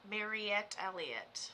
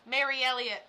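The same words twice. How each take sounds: First: Slow careful Mariette Elliott, MA-ree-ET; slow self-correction to Mariette Elliott; corrected name. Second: Mary Elliott said as two plain words; quick slip reading Mary Elliott; name misread as Mary Elliott. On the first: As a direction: spell out Mariette Elliott slowly. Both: Shown as a demonstration.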